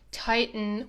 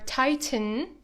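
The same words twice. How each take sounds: First: The middle T is a glottal stop. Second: The middle T is fully released.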